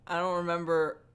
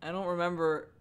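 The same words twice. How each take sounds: The two takes are said the same way.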